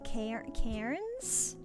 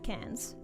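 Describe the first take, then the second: First: It is read out as spelled, with an r. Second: It sounds exactly like the word cans. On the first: The speaker does not know the local pronunciation. The speaker calls it wrong. "someone who's not Australian tries to say that, they always trip over it" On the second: The speaker knows the local pronunciation. The speaker calls it right. "You literally just say it like the word cans"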